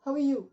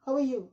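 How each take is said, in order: No difference in how they are said.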